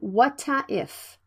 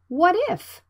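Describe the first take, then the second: First: An extra vowel follows the t. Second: The t links straight into 'if'. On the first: The speaker calls it wrong. "Don't say whata if" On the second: The speaker calls it right. "Consonant and vowel blended"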